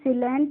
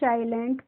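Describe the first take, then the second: First: The first vowel is short, like in 'sit'. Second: The first vowel is long, like in 'sigh'. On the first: The speaker calls it wrong. "इसको हम सिलेंट नहीं पढ़ते हैं" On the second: The speaker calls it right. "साइलेंट पढ़ते हैं"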